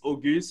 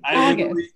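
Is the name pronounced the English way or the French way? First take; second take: French; English. First: The name is pronounced the French way. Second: The name is pronounced the plain English way. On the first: This is how it would be said in French. "if you're speaking French" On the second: This is how the family says it. "Me and everyone in my family say August"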